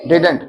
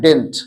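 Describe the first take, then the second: First: Both d sounds are pronounced: did-unt. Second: The middle d is dropped: dint. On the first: "कुछ लोग इसको पढ़ते हैं डिडंट" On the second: "you pronounce it डिंट"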